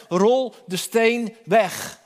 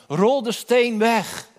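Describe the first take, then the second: First: Solemn command. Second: Repeated solemn command. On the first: Jesus commands at the tomb. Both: Acted.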